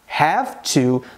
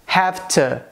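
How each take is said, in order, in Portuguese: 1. As duas palavras são pronunciadas completamente e separadamente. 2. As duas palavras são reduzidas e ditas juntas. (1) "Apesar de eu pronunciar have to" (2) "no dia a dia é muito mais comum a gente ouvir as pessoas dizendo have to"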